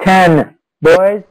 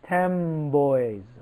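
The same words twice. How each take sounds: First: Ten ends with a clear n sound. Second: Ten ends with an m-like sound before boys. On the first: "Assimilation is changing the sound" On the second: "which is changed to ten boys"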